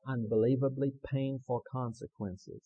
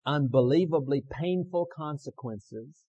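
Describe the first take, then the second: First: Said in the usual way. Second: Loud, slow, weighty lead; leading a recitation. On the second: Shown as a demonstration. Preacher giving the congregation words to repeat, loud slow lead. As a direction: call it out slowly for them to echo. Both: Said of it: "And then repeat with me".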